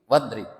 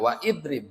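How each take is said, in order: First: The glottal stop is dropped, joining the words. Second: The glottal stop is pronounced, separating the words. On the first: The speaker calls it right. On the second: The speaker calls it wrong.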